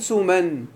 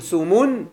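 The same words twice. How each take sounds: First: سمن said "suman", with a in the last syllable; alif-maqsura form. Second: سمن said "sumun", with u in the last syllable; dropped-alif form. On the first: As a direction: end سمن clearly in -an. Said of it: "والذي بالألف كتقول". (نطق سمن بفتحتين في آخرها: سُمَن) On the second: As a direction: end سمن clearly in -un. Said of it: "المحذوف الألف". (نطق سمن بضمتين في آخرها: سُمُن) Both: Shown as a demonstration.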